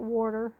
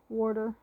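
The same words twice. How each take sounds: First: The first syllable sounds like 'wor', with an r. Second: The first syllable has no r sound. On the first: The speaker calls it wrong. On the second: The speaker calls it right.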